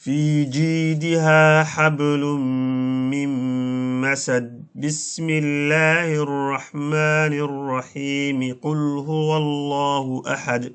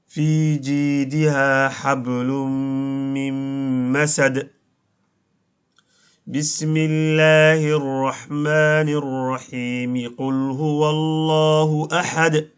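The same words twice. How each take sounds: First: It runs straight through with no pause at all. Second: It pauses after masad, then runs on without stopping. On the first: "idan waa waslu ljamiic, dhammaan waad xiriirinaysaa" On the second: "suuratu maaragtay almasadna aakhirkeedii waan ka goynay, bisinkaan ka goynay"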